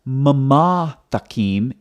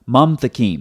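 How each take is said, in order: First: An extra vowel is heard after the second m. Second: No vowel is heard after the second m. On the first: The speaker calls it wrong. "So it's not mamathakim" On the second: The speaker calls it right. "the schwa is silent"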